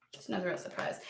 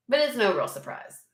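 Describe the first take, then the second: First: Softer, dropped-down echo of the line; quiet repeat. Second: Said in the usual way. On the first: Real, not acted. Quietly repeating to viewers, knowing and much softer. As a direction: say it again under her breath, much softer.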